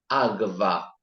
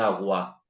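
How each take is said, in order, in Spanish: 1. El sonido después de la g es como una v. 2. El sonido después de la g es como una w. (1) "decía agva" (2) "en vez de agua"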